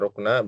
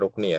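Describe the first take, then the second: First: The word ends with an 'a' vowel. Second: The word ends with an 'i' vowel. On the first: "Bisa dibaca rukna" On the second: "bisa dibaca rukni"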